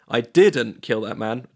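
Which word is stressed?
didn't. The stress is on "didn't".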